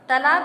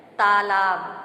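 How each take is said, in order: First: तालाब with short first a, "talaab"; mispronunciation. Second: तालाब loud, both vowels long, "taa-laab"; correct pronunciation. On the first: Teacher asking for the correction, wrong short vowel. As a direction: say तालाब wrongly as "tuh-laab". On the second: Teacher giving the correct word, loud long vowels. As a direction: lengthen the first aa of तालाब, loudly. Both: Shown as a demonstration. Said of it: "का शुद्ध है".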